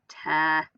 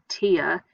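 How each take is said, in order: First: The vowel sounds like the word air. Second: The vowel sounds like the word ear. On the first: The speaker calls it right. "It's the air sound. it says tear. Tearing up some paper" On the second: The speaker calls it wrong. "it doesn't say tear"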